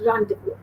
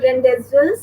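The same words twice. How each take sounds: First: Rendezvous said "ron-de-voo"; rendezvous in its proper French-derived form; correct pronunciation. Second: Rendezvous read as spelt, "ren-dez-vus"; rendezvous mispronounced letter by letter; wrong pronunciation. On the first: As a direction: repeat rendezvous French-style, Z and S silent. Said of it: "Again, I repeat". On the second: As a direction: show the mistake, rendezvous with a sounded Z. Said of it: "It's not rendezvous". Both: Shown as a demonstration.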